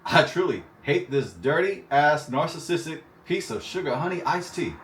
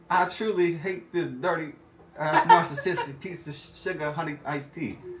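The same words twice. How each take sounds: First: It is read in the speaker's natural accent. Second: It is read in an imitated, put-on accent.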